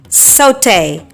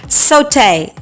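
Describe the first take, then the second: First: It is said in a British English accent. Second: It is said in a British English accent.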